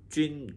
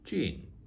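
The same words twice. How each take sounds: First: The syllable has a high level first tone. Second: The syllable has a tone other than level. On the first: It means fungus. "일성 그러면 이제 균이고 펑거스고" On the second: It means mushroom. "菌 그러면 이제 머쉬룸이고"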